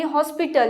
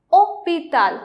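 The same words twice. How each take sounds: First: "hospital" the English way, with H and S sounded; English pronunciation. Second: "hospital" the French way, no H and no S; silent H. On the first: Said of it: "It can be hospital in Eng". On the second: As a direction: say "hospital" as French "ôpital", stressed at the end. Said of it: "don't pronounce H over here". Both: Shown as a demonstration.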